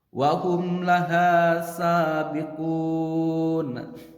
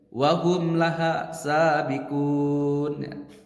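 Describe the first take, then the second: First: The vowel in laha is cut short by speed. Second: The vowel in laha is cut short by speed.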